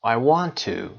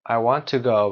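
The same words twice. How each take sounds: First: Final "to" with a full, long oo; stressed "to". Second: Small, short "to" said as tuh; don't stretch "to", lean on "go"; unstressed "to". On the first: Teacher showing learners the strong form, stressed "to". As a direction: finish firmly on "to", said as too. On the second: Teacher repeating the schwa example, weak "to". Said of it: "ت کوچیک هست". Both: Shown as a demonstration.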